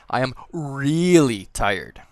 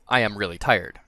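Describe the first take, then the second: First: The word really is strongly emphasized. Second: The word really gets no extra emphasis.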